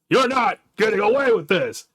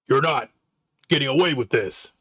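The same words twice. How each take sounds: First: The line is yelled loudly with force. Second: The line is spoken quietly without force. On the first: The speaker calls it right. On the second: The speaker calls it wrong.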